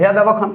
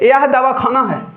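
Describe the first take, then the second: First: Davakhana is said in one go, without pausing. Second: There is a pause between dava and khana.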